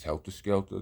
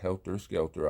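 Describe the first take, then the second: First: The word endings sound like 'ah'. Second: The word endings sound like 'er'. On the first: The speaker calls it right. "it's a AH in the words" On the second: The speaker calls it wrong. "not E Rs"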